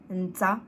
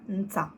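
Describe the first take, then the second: The two takes are said the same way.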